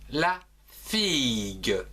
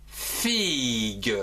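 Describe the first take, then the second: First: Slowed model word. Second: Said in the usual way. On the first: Shown as a demonstration. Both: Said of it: "comme par exemple".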